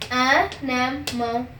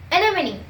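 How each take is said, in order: First: Stretched very slowly, teacher model; slow demo. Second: Said in the usual way. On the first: Shown as a demonstration. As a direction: drag each syllable out slowly. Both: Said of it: "Me first, then you".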